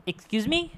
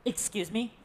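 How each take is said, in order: First: "Excuse me?" pitched high with a sharp rise; offended, cannot believe it; indignant disbelief. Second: Soft, unsure "Excuse me?" with a rising end; puzzled question. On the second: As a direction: ask it quietly as if unsure you heard right. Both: Acted. Repeated disbelieving question.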